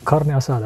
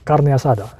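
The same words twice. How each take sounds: First: It is said with an English accent. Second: It is said with a Spanish accent.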